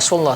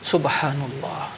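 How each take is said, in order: First: It is said quickly and clipped. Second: It is said slowly and carefully. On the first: The words are said without attention to their meaning. The speaker calls it wrong. "Enggak benar seperti itu" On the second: The words are said with their meaning in mind. The speaker calls it right.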